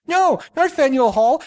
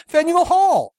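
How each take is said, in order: First: Faneuil Hall meaning funeral home, said higher; a mimicked Japanese man insists on Faneuil Hall, high and mock-accented. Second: Second Faneuil Hall said high and insistent; a mimicked Japanese man repeats Faneuil Hall as the correction; mock Japanese accent. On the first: Faneuil Hall in a higher mock accent. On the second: Faneuil Hall insisted in a higher mock accent. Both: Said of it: "very thick accents".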